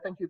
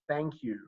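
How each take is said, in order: First: It is said quickly and automatically. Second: It is said slowly and deliberately.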